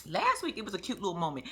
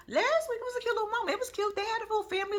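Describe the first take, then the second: First: Said in the usual way. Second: "Last week, it was a cute little moment" up high and sugary; cooing over a cute moment; much higher sweet voice. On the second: Acted. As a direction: gush it in a high girly voice. Repeats line in high voice.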